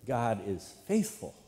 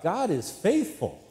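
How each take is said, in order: First: Said in the usual way. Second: High, slow call to the congregation; demonstrated yell. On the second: Shown as a demonstration. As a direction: yell it out, stretching the words. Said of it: "if I was to yell out".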